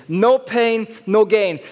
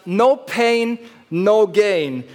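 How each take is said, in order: First: No Pain, No Gain repeated with a louder NO; title phrase repeated louder. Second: No Pain, No Gain with the NO leaned on; title phrase. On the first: Preacher repeating the sermon title to the congregation, louder. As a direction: drive the title home a second time. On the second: Preacher naming his sermon title with emphasis. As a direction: announce the title slowly with weight. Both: Shown as a demonstration. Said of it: "habe ich die Predigt genannt".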